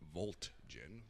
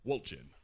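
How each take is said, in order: First: The name begins with a V sound. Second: The name begins with a W sound. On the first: It follows the German way of reading the letter. The speaker calls it wrong. "that definitely makes a V sound in German" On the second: It follows the English way of reading the letter. The speaker calls it right. "but Wolgin"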